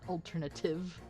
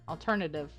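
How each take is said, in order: First: The word is pronounced in an odd way. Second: The word is pronounced in the usual way. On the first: The speaker calls it wrong. "not alternative, or whatever I said" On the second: The speaker calls it right.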